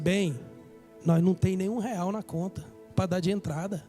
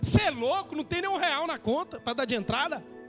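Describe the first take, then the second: First: It is said in a gentle, loving tone. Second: It is said in a harsh, mocking tone.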